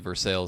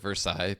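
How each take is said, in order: First: The word has an English pronunciation. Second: The word has a French pronunciation. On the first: This is how the still's owners say it. "they call it the Versailles still" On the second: This is how it is said in France. "in France they pronounce it Versailles"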